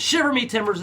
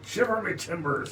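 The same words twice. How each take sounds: First: Said in the usual way. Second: High loud pirate cry. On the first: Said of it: "is a great one". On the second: Pretend. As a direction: holler it like a pirate. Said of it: "Shiver me timbers is a great one".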